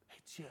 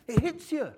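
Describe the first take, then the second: First: Dropped almost to a breath; hushed echo. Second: High and loud, hitting hard; emphatic. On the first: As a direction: let it sink in quietly. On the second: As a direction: punch it out like the arrow striking. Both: Real, not acted. Repeating for effect.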